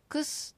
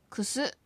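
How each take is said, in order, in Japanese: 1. 最後の母音は弱いか、落ちます。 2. 最後の母音は、はっきり発音されます。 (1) "クスではなく" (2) "後のウをはっきり発音してクスのように発音する"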